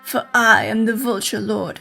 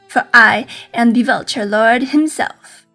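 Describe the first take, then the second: First: It is said in a changed, put-on character voice. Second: It is said in the character's usual voice.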